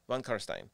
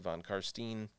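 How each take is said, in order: First: The R is rolled and the end rhymes with 'wine'. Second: The R is plain and the end differs from 'wine'. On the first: The speaker calls it right. "you roll the R a little bit, and the end rhymes with wine" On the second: The speaker calls it wrong. "some people try to say von Karstein or something like that"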